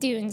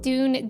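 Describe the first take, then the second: First: The word is said loosely and unclearly. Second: The word is said slowly and clearly. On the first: The speaker calls it wrong. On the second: The speaker calls it right.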